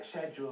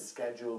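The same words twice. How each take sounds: First: The word has an English pronunciation. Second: The word has an American pronunciation. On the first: "schedule would be the English pronunciation" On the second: "schedule would be the American pronunciation"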